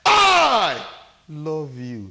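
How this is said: The stress falls on the word I. "The emphasis is on me"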